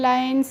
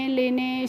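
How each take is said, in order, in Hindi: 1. यह एक अक्षर है, 'eye' स्वर के साथ। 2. यह दो अक्षर हैं, 'le-ne', 'eh' स्वरों के साथ। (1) "आप पढ़ लेंगे" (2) "इस तरीके से नहीं पढ़ना है"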